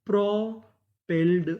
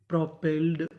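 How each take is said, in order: First: propelled said slowly, syllable by syllable; teacher drawing out propelled; slow careful reading. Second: Said in the usual way. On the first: Shown as a demonstration. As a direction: stretch propelled out for learners. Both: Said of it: "तो meaning क्या बनी?".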